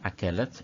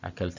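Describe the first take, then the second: First: The word is said with three syllables. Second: The word is said with two syllables. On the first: The speaker calls it right. "അക്കലത്ത് എന്നാണ്" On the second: The speaker calls it wrong. "അക്കൽത്ത് അല്ല"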